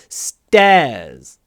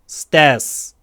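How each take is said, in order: First: The final S sound is light and weak. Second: The final S sound is strong and firm. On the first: The speaker calls it right. "А мы так не делаем" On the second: The speaker calls it wrong. "Русскоговорящие часто говорят stairs... можно говорить уверенный с"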